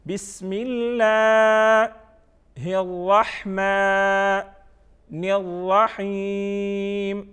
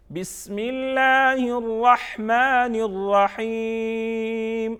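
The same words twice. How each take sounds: First: Very slow chant with pauses between parts; recitation by parts. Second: Slow, higher chant in one breath-like flow; joined-up recitation. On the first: Teacher models Bismillah for pupils part by part, slow chant. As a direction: chant piece by piece with long held vowels. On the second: Teacher models whole Bismillah for pupils, flowing chant. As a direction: recite it connected, stretching long vowels. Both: Shown as a demonstration.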